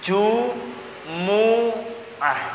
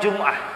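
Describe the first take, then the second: First: An u vowel follows the m. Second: No vowel follows the m. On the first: The speaker calls it right. "Dibaca dhammah mimnya" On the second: The speaker calls it wrong. "Bukan dimatikan mimnya"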